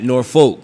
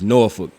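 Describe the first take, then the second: First: The second syllable is a full 'folk' sound. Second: The second syllable is a short 'fuck' sound. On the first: The speaker calls it wrong. "not Norfolk" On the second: The speaker calls it right. "It's Norfolk, ... like fuck"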